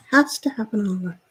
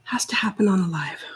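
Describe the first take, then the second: First: Said in the usual way. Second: Whispered to herself. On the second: Real, not acted. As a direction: breathe it under the breath, annoyed. Muttering to herself at glitch.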